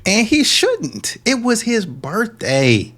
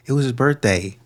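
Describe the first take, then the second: First: High, drawn-out sarcastic outrage; hammed-up scolding, high and slow; mock indignation. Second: Said in the usual way. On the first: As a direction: stretch each phrase in exaggerated indignation. Mock scolding of woman in clip.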